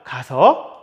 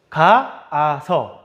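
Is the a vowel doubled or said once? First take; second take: once; doubled. First: The a vowel is said only once. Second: The a vowel is said twice in a row. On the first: The speaker calls it right. "우리 가서라고 하죠" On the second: The speaker calls it wrong. "근데 우리 실제로 가, 아, 서라고 하지 않아요"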